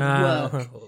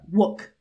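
First: The vowel is held longer and fuller. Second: The vowel is clipped and too short. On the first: The speaker calls it right. "instead of work" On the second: The speaker calls it wrong. "It's more like work. It was too short"

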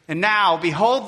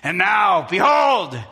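First: It is said in a plain reading voice. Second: It is said with strong, forceful emphasis.

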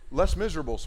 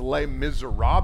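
First: The title is read out with English sounds. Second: The title is pronounced with French sounds. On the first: The speaker calls it wrong. "I literally pronounced it that way and got laughed at" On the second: The speaker calls it right. "it's actually called something else"

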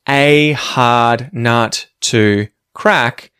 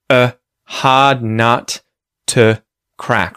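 First: The words 'a' and 'to' have full vowels. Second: The words 'a' and 'to' have schwa vowels. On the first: "instead of saying" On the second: "give them a schwa sound in place of the vowel sound"

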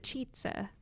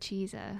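First: The middle consonant is a 'ts' sound. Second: The middle consonant is a plain 's' sound. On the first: The speaker calls it right. "It's the cheetza" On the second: The speaker calls it wrong. "Not the cheesa"

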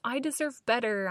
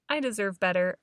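First: It is said in a whining, complaining tone. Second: It is said in a calm, firm tone.

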